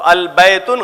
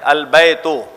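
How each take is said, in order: First: The word ends with an added n sound. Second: The word ends in a vowel, no n sound. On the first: The speaker calls it wrong. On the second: The speaker calls it right.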